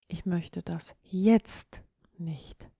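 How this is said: The stress falls on the word jetzt. The speaker does not want it now, maybe later. "du möchtest es augenblicklich nicht"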